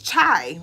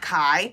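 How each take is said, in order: First: The word begins with a ch sound. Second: The word begins with a k sound. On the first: The speaker calls it right. "it's chai, right?" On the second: The speaker calls it wrong. "It's not kai"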